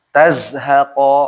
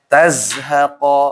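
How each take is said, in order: No difference in how they are said.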